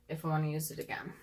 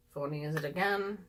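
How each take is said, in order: First: Quick whispered aside; whispering. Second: Said in the usual way. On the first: Real, not acted. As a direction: whisper it to yourself. Repeats phrase, then whispers it.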